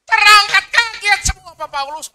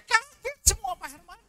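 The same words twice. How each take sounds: First: High, loud "kaget semua" burst out; excited shout. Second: High, startled "Kaget semua"; mock astonishment. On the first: Acted. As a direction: shout it to the congregation in amazement. Loud retelling of ascension. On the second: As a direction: gasp the words in hammed-up shock. Disciples startled at ascension.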